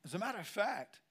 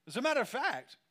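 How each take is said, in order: First: Said in the usual way. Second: Louder, higher, punched; emphatic loud. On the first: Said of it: "repeated phrase softer". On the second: Real, not acted. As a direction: hit it like a revelation. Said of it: "repeated phrase".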